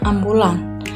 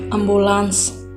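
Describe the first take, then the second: First: The word ends with an n sound. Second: The word ends with an s sound. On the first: This is the non-standard everyday form. The speaker calls it wrong. "Kata tidak bakunya" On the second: This is the standard form. The speaker calls it right. "Kata baku yang kelima"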